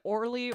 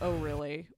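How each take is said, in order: First: It is said as two syllables, run together. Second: It is said as three syllables, 'oh really'. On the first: "Is it Orly" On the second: "or is it Oh really?"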